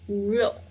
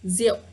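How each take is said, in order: First: The word is said fully as it is written. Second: The word is said in a simpler everyday form. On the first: The speaker calls it wrong. "it's really difficult to pronounce" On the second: The speaker calls it right. "Vietnamese people actually pronounce it the same as this one"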